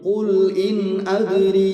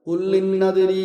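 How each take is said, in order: First: Each word is kept clearly separate from the next. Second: The words are run together with doubled consonants. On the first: The speaker calls it right. "ഖുൽ ഇൻ അദ്രി എന്ന് പറയണം" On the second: The speaker calls it wrong. "ഖുല്ലിന്നദ്രി എന്നത് മാറി"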